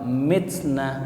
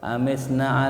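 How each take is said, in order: First: The word starts with an m consonant. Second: The word starts with an a vowel.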